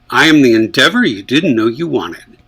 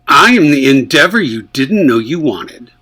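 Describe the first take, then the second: First: It is said in a neutral, even tone. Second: It is said in an angry, pointed tone.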